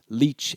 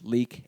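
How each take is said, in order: First: The word ends with a ch sound. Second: The word ends with a hard k sound. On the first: This is the form used in southern England. "were probably pronounced as leech" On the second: This is the original Old English form. "the Old English words leek"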